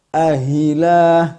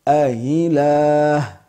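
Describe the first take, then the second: First: The second hamza is pronounced as an h sound. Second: The second hamza is softened without an h sound. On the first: The speaker calls it wrong. "tashil itu bukanlah huruf ha" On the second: The speaker calls it right. "mempraktekkan tafsir dari beliau berdua"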